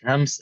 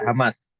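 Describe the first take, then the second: First: The word is said as one syllable. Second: The word is said as two syllables. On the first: This is the original Arabic form. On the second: This is how Malay speakers say it.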